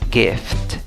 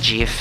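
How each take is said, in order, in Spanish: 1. El primer sonido es una g fuerte. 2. El primer sonido no es una g fuerte. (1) "sino es gift" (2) "la pronunciación no es gift"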